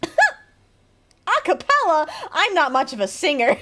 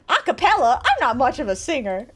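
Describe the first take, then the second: First: Breaking up mid-line, slow and higher; can't keep a straight face; giggling through the NPC line; laughing through it. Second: Said in the usual way. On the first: Acted. NPC line read while laughing.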